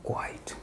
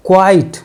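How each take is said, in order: First: Hushed whisper, barely voiced. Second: Said in the usual way. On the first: Shown as a demonstration. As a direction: breathe the word quite as a hush. (फुसफुसाकर quite) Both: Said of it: "तो बोलते हैं".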